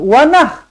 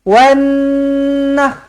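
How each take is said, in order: First: The n is short, with no held nasal hum. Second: The n is doubled and held with a nasal hum. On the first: The speaker calls it wrong. "Tak nak baca wanah" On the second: The speaker calls it right. "tetapi wanah. Nun sabdu, dengungkan"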